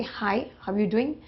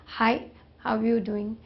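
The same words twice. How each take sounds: First: Said in the usual way. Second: Slower, drawn-out greeting; different tone. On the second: Shown as a demonstration. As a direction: stretch the greeting out slowly. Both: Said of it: "This is in terms of tone".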